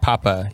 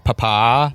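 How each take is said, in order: First: The stress is on the first syllable. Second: The stress is on the second syllable. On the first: The speaker calls it wrong. "You don't say papa" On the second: The speaker calls it right. "You say papa. ... Put a little stank on that second syllable"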